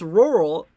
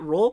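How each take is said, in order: First: The word is said fully with two syllables. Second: The word is squeezed into one syllable. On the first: "It's rural" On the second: "just say roll"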